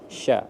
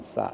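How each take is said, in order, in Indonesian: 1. Suku kata itu diawali bunyi sh. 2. Suku kata itu diawali bunyi s biasa. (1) "tapi shin" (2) "bukan sa ya"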